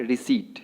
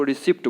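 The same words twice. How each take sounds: First: रिसीट with silent p: ri-seet; correct pronunciation. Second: रिसिप्ट with the p sounded: ri-sipt; wrong pronunciation. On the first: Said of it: "तो क्या बोलना है". (रिसीट में प चुप) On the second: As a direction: say रिसिप्ट with a clear p before t. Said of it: "यहाँ पे पी silent है". (रिसिप्ट में प सुनाई दे) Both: Shown as a demonstration.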